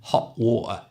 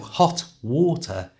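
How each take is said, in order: First: The T in hot is a glottal stop. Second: The T in hot is a full T.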